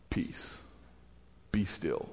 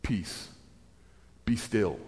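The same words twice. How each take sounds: First: Even softer, lower, barely voiced; very quiet, calm authority; calm command. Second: Soft, lower, calm authority; quiet, gentle command. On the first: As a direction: hush the storm, almost whispered. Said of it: "not even like he stood up and yelled". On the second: Acted. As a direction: still the storm without raising the voice. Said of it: "he stands up and he says".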